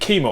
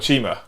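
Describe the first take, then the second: First: The name starts with a hard k sound. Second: The name starts with a ch sound. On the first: The speaker calls it wrong. "I've been saying it wrong" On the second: The speaker calls it right. "C H is ch ch"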